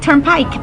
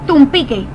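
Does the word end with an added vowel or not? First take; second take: no vowel; added vowel. First: It ends on the k with no vowel. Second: It ends with an added e vowel. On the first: The speaker calls it right. "no decía turnpike para nada" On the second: The speaker calls it wrong. "mi primo decía tumpique"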